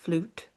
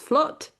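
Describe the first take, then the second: First: The word is said as 'flute'. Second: The word is said as 'flut'. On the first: This is how people elsewhere say it. "and you might think that it's flute" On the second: This is the Yorkshire way of saying it. "depending on where you're from in the world, you might think that episode nineteen was flut"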